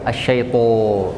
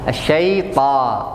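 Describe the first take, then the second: First: The final vowel is rounded like 'o'. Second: The final vowel is open like 'a'. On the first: The speaker calls it wrong. "Jangan o" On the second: The speaker calls it right.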